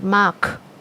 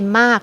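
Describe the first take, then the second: First: The final K sound is hard and fully released. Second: The final K sound is soft, barely released. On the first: The speaker calls it wrong. "not mark" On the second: The speaker calls it right. "We say mark, We don't k"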